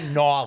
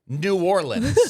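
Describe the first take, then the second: First: The name is clipped into one short blended word. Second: The name is said fully as separate words. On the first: The speaker calls it right. "It's pronounced Nolans" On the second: The speaker calls it wrong. "You keep saying New Orleans"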